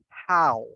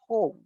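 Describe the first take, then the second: First: The vowel sounds like the one in cow. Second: The vowel sounds like the one in go. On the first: The speaker calls it right. "say how, like cow" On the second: The speaker calls it wrong. "So don't say ho"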